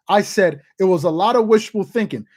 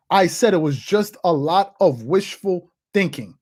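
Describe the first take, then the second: First: Said in the usual way. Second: Slow, deliberate delivery, word by word; measured I-told-you-so, spaced out; slow emphatic repeat. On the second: Real, not acted. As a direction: drive the point home slowly. Repeats own claim slowly for emphasis.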